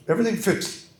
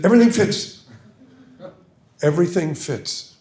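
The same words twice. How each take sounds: First: Put-on high, swallowed English accent; Berlin imitation. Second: High, louder swallowed English don; Berlin imitation, insistent. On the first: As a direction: mimic a mumbling Oxford don. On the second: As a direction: press the point like the don. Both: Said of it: "I'll try to".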